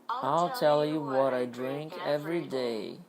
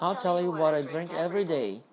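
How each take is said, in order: First: The sentence is spoken slowly. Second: The sentence is spoken at normal, quick speed. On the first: "Ó, devagar" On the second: "Normal, normal"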